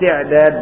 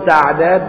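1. المقطع الأول فيه الحركة 'i'. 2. المقطع الأول فيه الحركة 'a'. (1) "ولا تقل تعداد بالكسر" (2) "قل تعداد بالفتح"

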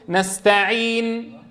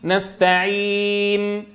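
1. تُمَدّ الحركة الطويلة حركتين. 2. تُمَدّ الحركة الطويلة أربع حركات. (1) "2 و4 و6 حركات" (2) "2 و4 و6 حركات"

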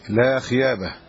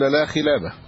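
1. ينطق الحرف الأوسط بصوت Y. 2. ينطق الحرف الأوسط بصوت L. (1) "فكان يقولها هكذا لا خيابة، ينطق اللام ياء" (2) "ولا يمكنه أن يقول لا خلابة"

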